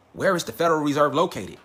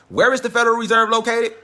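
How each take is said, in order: First: Said in the usual way. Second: Louder and higher, pressing the question; loud, higher emphatic re-ask; dramatic repeat. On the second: Shown as a demonstration. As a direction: hit it hard like a big reveal. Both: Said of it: "Now it gets deep".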